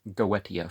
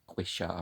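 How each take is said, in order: First: The middle consonant is a clear 't' sound. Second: The middle consonant is a 'sh' sound. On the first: The speaker calls it right. "it keeps that T pronunciation" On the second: The speaker calls it wrong. "it's not Quisha"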